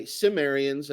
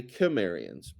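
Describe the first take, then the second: First: "Cimmerians" begun with a soft s; soft-C regional pronunciation. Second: "Kimmerians" begun with a hard k; hard-C regional pronunciation. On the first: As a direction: say "Cimmerians" with an s opening. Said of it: "So some regions". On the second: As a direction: say "Kimmerians" with a k opening. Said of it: "and other regions say Kimmerians". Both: Shown as a demonstration.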